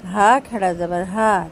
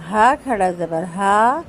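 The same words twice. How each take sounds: The two takes are said the same way.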